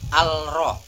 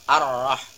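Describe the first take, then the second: First: The article keeps a clear l sound. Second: The l merges into a doubled r sound. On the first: The speaker calls it wrong. "bukan al-rah" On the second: The speaker calls it right. "tetapi ar-rah"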